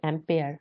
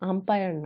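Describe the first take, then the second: First: The word ends with a 'peer' sound. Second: The word ends with a 'pire' sound. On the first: The speaker calls it right. "এটা উচ্চারণ কিন্তু অ্যাম্পিয়ার" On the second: The speaker calls it wrong. "আম্পায়ার না"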